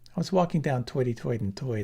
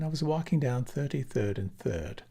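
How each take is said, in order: First: It is spoken in a Brooklyn New York accent. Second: It is spoken in a British received pronunciation accent. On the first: "I had to throw in the Bronx, Brooklyn" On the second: "with received pronunciation"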